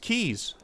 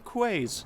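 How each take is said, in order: First: The word sounds like 'keys'. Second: The word is read out letter by letter, 'kways'. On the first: "these are pronounced keys, I think, is what a comment said" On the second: "I pronounce them quays because I'm sticking to my guns"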